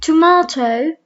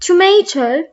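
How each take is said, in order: First: It is said in a British accent. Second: It is said in an American accent.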